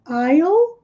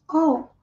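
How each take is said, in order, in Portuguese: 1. A palavra começa com um som de 'eye' completo. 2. A palavra começa com um som de 'aw' reduzido. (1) "I é eu, I'll" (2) "eles costumam daí omitir o I'll, geralmente all"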